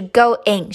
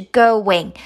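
First: "going" as GO-ING, no glide; unlinked pronunciation. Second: "going" as GO-WING; linked pronunciation. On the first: Teacher showing what to avoid, "going" unlinked as go-ing. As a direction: say "going" as two separate syllables, go-ing. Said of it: "不是going". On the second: Teacher showing the linked sound, "going" as go-wing. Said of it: "是going". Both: Shown as a demonstration.

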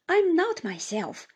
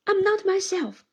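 First: Higher, a touch of sobbing, barely got out; lightly voiced weeping words; mild tearful broken plea; through sobs. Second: Louder, higher, a touch of tearful distress; lightly tearful, pushing him away; mild tearful protest. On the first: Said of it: "was all I could distinguish". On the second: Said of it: "burst into such tears". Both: A narrator's reading.

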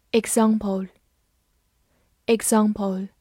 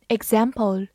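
First: Said in the usual way. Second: "example" with the American short "a" of "cat"; American pronunciation. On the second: Shown as a demonstration. Teacher showing learners the US variant, American pronunciation of "example". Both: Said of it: "美式发音".

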